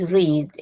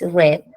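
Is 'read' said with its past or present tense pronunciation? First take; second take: present; past. First: It has the present tense pronunciation. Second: It has the past tense pronunciation. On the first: The action happens now. "in present is read" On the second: The action already happened. "in past is read"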